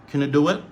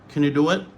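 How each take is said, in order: No difference in how they are said.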